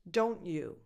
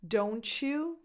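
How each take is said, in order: First: The T is skipped, with no ch sound. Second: The T and Y blend into a ch sound. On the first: "Where you kind of skip the T" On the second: "you get a ch sound in the middle"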